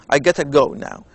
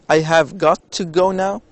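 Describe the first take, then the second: First: 'Have got to' is squeezed into a quick 'gotta'. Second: Each word of 'have got to' is said separately. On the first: "when they speak uh, very fast, ... they say I gotta go now" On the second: "they don't say I have got to go now"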